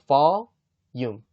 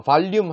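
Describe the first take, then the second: First: "volume" as va-yum, with no l; right pronunciation. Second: "volume" with a long clear l, val-lyum; wrong pronunciation. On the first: Teacher modelling the right form, "volume" said as va-yum. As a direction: drop the l in "volume", vah then yum. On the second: Teacher warning against this form, "volume" said as val-lyum. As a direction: linger on the l in "volume". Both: Shown as a demonstration. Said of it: "volume 하지 마시고 volume".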